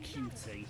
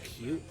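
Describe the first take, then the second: First: It is spelled out as two separate letters. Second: It is said as the single word cute. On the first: "I'm pronouncing it Q T" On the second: "actually, it's pronounced cute"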